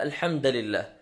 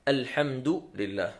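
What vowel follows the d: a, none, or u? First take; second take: a; u. First: The d is followed by a short a. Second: The d is followed by a short u. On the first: The speaker calls it wrong. "ولا بفتحها" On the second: The speaker calls it right. "نضم حرف الدال"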